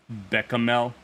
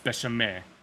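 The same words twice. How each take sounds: First: The ch is said as a hard k. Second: The ch is said as a soft sh. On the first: The word is taken as Greek. "The hard C H implies that it's Greek" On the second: The word is taken as French. "If it's French, it's bechamel"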